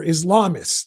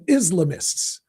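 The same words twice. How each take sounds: First: Islamists as is-LAH-mists; Islamists stressed mid-word. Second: Islamists as IZ-luh-mists; Islamists stressed up front. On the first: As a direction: stress the second syllable of Islamists. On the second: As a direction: stress the first syllable of Islamists. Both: Shown as a demonstration. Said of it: "depending on your pronunciation".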